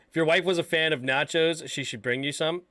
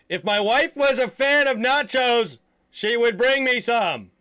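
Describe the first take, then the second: First: It is said at normal volume. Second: It is said loudly.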